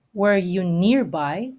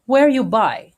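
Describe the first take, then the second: First: "Were you" slow and light, "nearby" weighted; stress pattern shown. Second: "Were" hit louder and higher than "you by"; stress on first word. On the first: Teacher contrasting the longer line for students, slow stress pattern. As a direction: slowly tap out the beats of "Were you nearby". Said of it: "is unstressed, unstressed, stressed, stressed". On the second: Teacher showing students the iambic beat, stress on "Were". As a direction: punch "Were" then let "you by" fall. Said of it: "it starts with a stressed syllable". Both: Shown as a demonstration.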